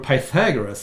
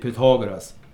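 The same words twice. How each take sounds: First: The name is pronounced the English way. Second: The name is pronounced the Swedish way.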